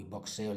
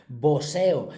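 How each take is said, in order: First: "boxeo" said quietly with a KS sound, "bokseo"; wrong boxeo. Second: "Boxeo" loud, with S instead of KS, "boseo"; corrected boxeo. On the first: Teacher catching her own slip, quiet "bokseo". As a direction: softly say "boxeo" as "bok-SEH-o". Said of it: "le he dicho con X". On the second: Teacher correcting herself to class, louder "boseo". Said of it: "con V y con S". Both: Shown as a demonstration.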